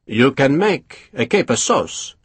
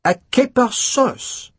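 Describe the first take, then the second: First: Said in the usual way. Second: Much higher, slow, appalled; disgusted echo. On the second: A narrator's reading. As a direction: repeat it as if offended. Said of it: "Durand looked disgusted".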